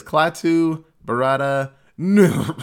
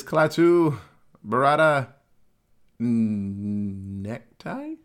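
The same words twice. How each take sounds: First: "Klaatu, Barada" said firmly, then a cough where the last word should be; cough over the last word. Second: Slow, careful syllables, then a stumble into "Necktie"; fumbled magic words. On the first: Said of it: "and coughs like he said it". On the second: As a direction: sound out "Klaatu, Barada" confidently, then guess "Necktie" when the last word escapes. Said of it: "I know it was an N-word". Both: Retold or imitated.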